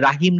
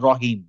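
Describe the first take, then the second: First: The first vowel is an open 'ah' sound. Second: The first vowel is a rounded 'aw' sound. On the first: The speaker calls it wrong. "রাহিম না বলে" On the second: The speaker calls it right. "বলবো রহিম"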